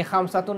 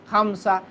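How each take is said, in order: First: खमसतुन said with the full "-tun" ending, the form not to use; the rejected खमसतुन, ending in "-tun"; wrong full ending. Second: खमसा ending on an open "a", with no "-tun"; the correct pausal खमसा, clipped to "a"; pausal form. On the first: Teacher showing students the wrong full ending खमसतुन. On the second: Teacher giving students the right pausal form खमसा. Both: Shown as a demonstration. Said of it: "यानी खमसतुन नहीं कहेंगे".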